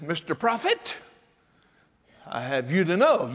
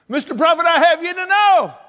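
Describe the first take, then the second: First: Said in the usual way. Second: High, loud acted protest; hammed-up widow's outburst; indignant retort. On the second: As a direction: set the prophet straight at full voice. Restarts the widow's retort emphatically.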